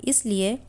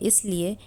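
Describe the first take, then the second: The two takes are said the same way.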